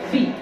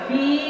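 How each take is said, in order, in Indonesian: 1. Vokalnya diucapkan pendek. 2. Vokalnya diucapkan panjang. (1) "Pendek saja" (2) "fi dipanjangkan sedikit"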